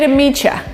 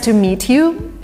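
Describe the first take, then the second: First: The last word is reduced to ya. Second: The last word is said in full as you. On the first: The speaker is talking casually with friends. "This is an American version" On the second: The speaker sounds formal. "very kind of British slash formal"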